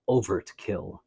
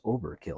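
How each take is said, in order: First: A T sound is heard in the middle. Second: No T sound is heard in the middle. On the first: The speaker calls it right. "He has a T in there" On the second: The speaker calls it wrong. "I think you're mispronouncing it. I think it's Overkill"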